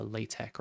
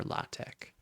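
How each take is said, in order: First: LaTeX with a long AY first; LaTeX as LAY-tek. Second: LaTeX with an open AH first; LaTeX as LAH-tek. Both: Shown as a demonstration. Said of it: "when you're pronouncing this".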